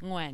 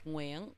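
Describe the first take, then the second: First: The name is said with an anglicized pronunciation. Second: The name is said with native Vietnamese pronunciation. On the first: "that's the best way to pronounce my name. As an English speaker" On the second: "In Vietnamese, it's Nguyen"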